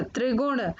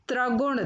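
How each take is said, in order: First: Said in the usual way. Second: त्रिगुण said "traguṇ"; change tri to tra in त्रिगुण; mispronounced त्रिगुण. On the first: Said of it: "फिर उनका शुद्ध उच्चारण". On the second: Shown as a demonstration. Teacher showing children the error, त्रिगुण said "traguṇ". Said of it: "अशुद्ध शब्द मैंने रखे हैं".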